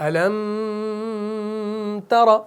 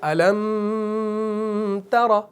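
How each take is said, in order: The two takes are said the same way.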